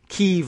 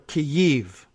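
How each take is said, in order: First: The name is said as one syllable, keev. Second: The name is said as two syllables, key-yeev. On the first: "Kiev like K E E V" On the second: "K E Y, key, and then dash Y E E V"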